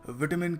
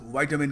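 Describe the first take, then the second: First: The first syllable rhymes with 'bit'. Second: The first syllable rhymes with 'bite'. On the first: "British थोड़ा विटामिन कहते हैं" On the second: "American वाइटामिन कहते हैं"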